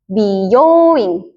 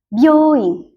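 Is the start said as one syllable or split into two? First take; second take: two; one. First: The 'bi' and 'yo' are said as separate syllables. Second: The 'byo' is said as one joined syllable. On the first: It means beauty salon. "Dia bacanya jadi dipisah" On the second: It means hospital. "artinya rumah sakit"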